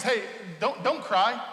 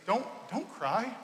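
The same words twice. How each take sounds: First: Said in the usual way. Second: Soft, slow and tender; gentle comfort. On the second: Retold or imitated. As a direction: hush her grief gently. Jesus comforts grieving widow.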